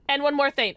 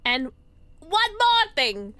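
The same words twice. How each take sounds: First: Said in the usual way. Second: High, drawn-out "one more thing"; slow, exaggerated dramatic announcement; hammed-up repeat. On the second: Hammed-up repeat of game line.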